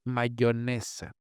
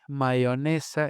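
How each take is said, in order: First: The y is a firm consonant. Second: The y is open and vowel-like. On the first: This is the general pronunciation. "en lugar de" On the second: This is the regional pronunciation. "la abertura de Y"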